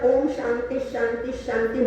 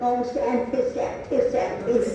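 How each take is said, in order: First: It is said with an Indian Sanskrit pronunciation. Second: It is said with an imitated American accent. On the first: The speaker calls it right. "आपल्याला ओम शांती शांती शांती म्हणता येतो" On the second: The speaker calls it wrong. "अमेरिकेकडे ओम सॅन्थे सॅन्थे सॅन्थिस असं म्हणतात"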